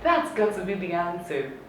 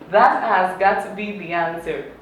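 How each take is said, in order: First: That and has merge into one short syllable. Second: That and has are said as two full words.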